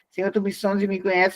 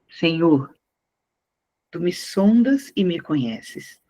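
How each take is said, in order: First: It is read in a flat, mechanical way. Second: It is read with feeling and expression. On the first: The reader does not show understanding of the text. The speaker calls it wrong. "eu não vou ler assim" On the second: The reader shows understanding of the text. The speaker calls it right. "se lê assim"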